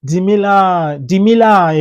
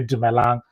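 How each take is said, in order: First: "Dimila" with an i sound, long and higher; mispronounced greeting. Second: Said in the usual way. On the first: Shown as a demonstration. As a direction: draw out "Dimila", ending on an open la. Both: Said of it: "if you're supposed to say".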